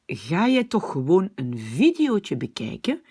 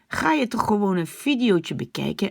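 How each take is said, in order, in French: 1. Prononcé doucement, avec des sons légers dans la gorge. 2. Prononcé durement, avec de forts sons gutturaux dans la gorge. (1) "la version, on va dire flamande, belge" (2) "je prononce ça comme aux Pays-Bas"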